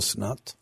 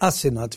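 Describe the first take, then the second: First: The first vowel is a rounded 'o'. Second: The first vowel is an open 'a'. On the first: The speaker calls it wrong. "ולא אסנת" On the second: The speaker calls it right. "השם שלכם זה אסנת"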